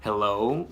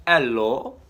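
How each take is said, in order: First: Said in the usual way. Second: A louder, half-hearted Russian accent on Hello; a quick failed try at a Russian Hello; a badly faked Russian accent. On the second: Shown as a demonstration. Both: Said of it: "I can't do a Russian accent".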